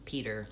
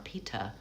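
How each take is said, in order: First: A soft D and a strong R at the end. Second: A crisp T and no R at the end. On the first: "you use more of a D sound and a solid American er" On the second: "where you actually say the T and you don't say an American R"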